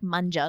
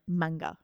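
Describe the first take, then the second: First: The g is soft, like a j. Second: The g is hard, like in go. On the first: The speaker calls it wrong. "it's not like manja, like Italian for eat" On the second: The speaker calls it right. "It's like manga"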